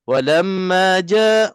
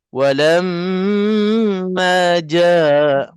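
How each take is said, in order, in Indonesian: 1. Bunyi sengau m dipotong pendek. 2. Bunyi sengau m ditahan lama. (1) "dia tak puas. Dia belum sampai lagi dua harakat" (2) "Kalau kira memang lebih tu. Tapi masih lagi dikira tajwid"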